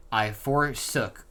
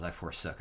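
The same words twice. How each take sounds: First: Drawn-out, weighty "I forsook"; solemn drawn-out "I forsook"; slow dramatic read. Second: "I forsook" said softly, wryly doubting the wording; low skeptical echo of "I forsook"; quiet puzzled repeat. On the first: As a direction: read "I forsook" slowly, like grand old scripture. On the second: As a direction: mutter "I forsook" back as if questioning it. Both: Shown as a demonstration. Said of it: "that's what it says".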